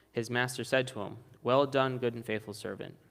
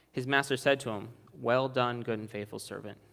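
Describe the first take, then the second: Both takes have the same delivery.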